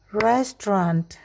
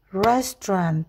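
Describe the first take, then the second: Both takes have the same delivery.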